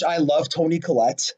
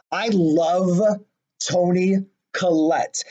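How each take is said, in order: First: Said in the usual way. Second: "I love ... Toni ... Collette" slowly, with pauses; slow, word-by-word emphasis on "love Toni Collette"; emphatic repetition. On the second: Real, not acted. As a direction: draw out "love", then set "Toni Collette" apart slowly.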